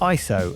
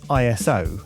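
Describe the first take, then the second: First: It is said as one word, eye-so. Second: It is spelled out as three separate letters. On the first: The speaker calls it right. "it's pronounced I S O" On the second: The speaker calls it wrong. "and not I S O"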